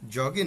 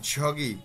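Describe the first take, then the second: First: The first consonant is a plain j sound. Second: The first consonant is a slightly aspirated j. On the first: The speaker calls it wrong. "জগি না" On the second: The speaker calls it right. "বর্গার জ এবং ঝয়ের মাঝামাঝি।"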